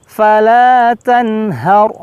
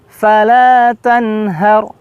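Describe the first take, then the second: No difference in how they are said.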